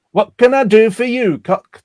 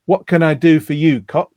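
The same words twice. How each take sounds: First: Attempted northern English barmaid accent, higher and louder; Bette Lynch's accent. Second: Said in the usual way. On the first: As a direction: have a hammed-up go at a Coronation Street accent. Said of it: "Now, I can't do the accent". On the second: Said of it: "as arch as Bette's catchphrase".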